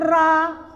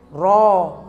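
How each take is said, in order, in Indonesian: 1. Vokalnya terbuka dan tidak bulat, seperti 'a'. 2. Vokalnya bulat, mendekati 'o'. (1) "Jangan ra" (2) "Ro juga begitu, baca ro"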